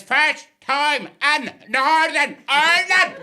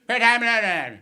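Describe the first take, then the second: First: Put-on loud, word-by-word Belfast accent, high-pitched; exasperated Belfast cabbie, each word separate; slow, emphatic Northern Irish. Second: Loud, slurred-together Belfast bark; garbled Northern Irish cabbie question; unintelligible Northern Irish accent. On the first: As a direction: spell it out slowly in harsh Northern Irish. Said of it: "One more time". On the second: Retold or imitated. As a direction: run the words into one Belfast blur. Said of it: "difficult to understand the Northern Irish accent".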